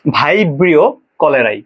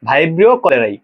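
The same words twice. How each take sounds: First: ভাইব্রিও কলেরাই drawn out slowly, syllable by syllable; teacher slowly models ভাইব্রিও কলেরাই for the class; slow pronunciation demo. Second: Said in the usual way. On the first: Shown as a demonstration. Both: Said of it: "pronunciation গুলা একবার বলে দিচ্ছি".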